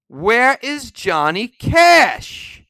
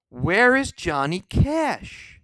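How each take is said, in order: First: Loud, slow, furious demand; angry shout. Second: Said in the usual way. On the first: Real, not acted. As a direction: yell the question out at the list makers. Indignant rant about missing artists.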